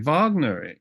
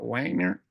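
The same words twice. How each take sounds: First: The name begins with a V sound. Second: The name begins with a W sound. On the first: "like we say Wagner in German" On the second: "Remember Robert Wagner?"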